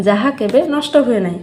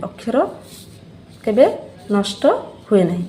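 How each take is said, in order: First: Said in the usual way. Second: ଅକ୍ଷର, କେବେ, ନଷ୍ଟ, ହୁଏ ନାହିଁ each set apart by a pause; word by word emphasis. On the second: Shown as a demonstration. Teacher repeats the definition for the pupils, pausing on each word.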